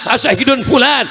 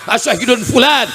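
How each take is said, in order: The two takes are said the same way.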